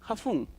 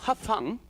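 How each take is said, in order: First: The vowel in fun sounds like put. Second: The vowel in fun sounds like cup. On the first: "some people say ... they pronounce U for words like this" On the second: "instead of"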